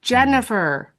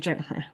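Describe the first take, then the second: First: The name is said loudly, as if across a room. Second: The name is said at normal volume. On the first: "I have to say it louder" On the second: "that might be how I normally say my name"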